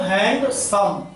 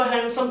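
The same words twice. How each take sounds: First: handsome slowly, as hand, then सम; syllable by syllable. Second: Said in the usual way. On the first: Shown as a demonstration. Teacher asking what he is saying, handsome slow in two parts. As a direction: stretch handsome into two distinct beats. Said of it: "मैं क्या बोल रहा हूं?". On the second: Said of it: "जरा बोलो तो handsome कितने बार में".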